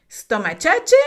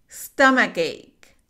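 First: Stomachache said as stoma-chach, laughing; funny wrong reading of Stomachache; wrong pronunciation. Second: Stomachache said slowly as stum-uh-kake; slow, careful Stomachache with a k sound; correct pronunciation. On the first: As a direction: mispronounce Stomachache with a ch sound, amused. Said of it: "suena súper chistoso". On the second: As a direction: model Stomachache clearly. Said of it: "veamos la pronunciación correcta". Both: Shown as a demonstration.

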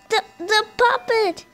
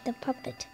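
First: Excited yell. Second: Said in the usual way. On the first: Real, not acted. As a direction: shout it out in shock. Spots puppet on camera, yells.

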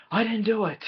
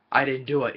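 First: High, pleading put-on voice; whiny denial. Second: Said in the usual way. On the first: Professor Plum insisting he's innocent, high and whiny. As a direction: whine your innocence.

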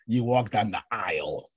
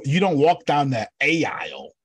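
First: "aisle" said as one smooth eye sound; plain "aisle" rhyming with mile; right pronunciation. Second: "A aisle" with the A said as a separate long ay sound before aisle, loud; drawing out a wrong "A aisle" to mock the spelling; wrong pronunciation. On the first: Correcting the group with a plain "aisle". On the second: Teaching the group a wrong "A aisle" with a separate ay. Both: Shown as a demonstration. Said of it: "A I is a diphthong".

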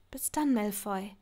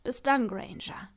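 First: Soft hushed goodbye; Hermine's tender whispered goodbye. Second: Said in the usual way. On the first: Acted. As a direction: breathe the farewell into the phone.

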